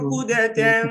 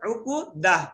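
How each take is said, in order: First: The word ends in a nasal 'tan' sound. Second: The word ends in an 'ah' sound. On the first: The reading continues into the next word. "মিলাই বলে এইভাবে পড়তে হবে" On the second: The reader stops here for breath. "এখানে আমার থামতে হবে... সেই ক্ষেত্রে আমরা করব ওয়াহলুল উকুদাহ"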